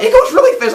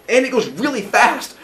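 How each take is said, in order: First: Excited echo. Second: Said in the usual way. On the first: Acted. Teacher voicing Phaethon echoing his dad, thrilled and much higher. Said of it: "And Phaethon's like". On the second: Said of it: "and he's like".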